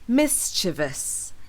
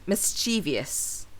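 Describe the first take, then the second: First: The word is said with three syllables. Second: The word is said with four syllables. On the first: The speaker calls it right. "the word actually only has three syllables. with the stress on the first syllable" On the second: The speaker calls it wrong. "with four syllables"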